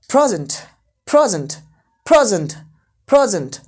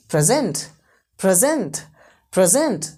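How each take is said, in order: First: "present" punched loud on pray, then falling; first-syllable stress. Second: "present" with the weight on gent; second-syllable stress. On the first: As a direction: hit the first syllable of "present", the noun for gift. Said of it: "पहला syllable stress हो जाए". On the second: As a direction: push the last syllable of "present", the verb. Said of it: "second syllable को stress करूँ". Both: Shown as a demonstration.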